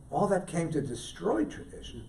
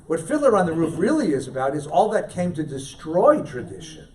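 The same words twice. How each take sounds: First: The point repeated much softer; soft, weighty restatement; quiet echo. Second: Said in the usual way. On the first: Real, not acted. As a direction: let the repeat drop to a hush.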